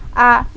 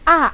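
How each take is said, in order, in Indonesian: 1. Vokal ini diucapkan dengan mulut hanya sedikit terbuka. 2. Vokal ini diucapkan dengan mulut terbuka lebar. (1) "kalau masih gini ... itu belum" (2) "rongganya minimal diangkat seperti ini, dua jari"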